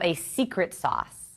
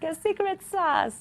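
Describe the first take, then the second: First: It is said in her normal accent. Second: It is said in a put-on Italian accent.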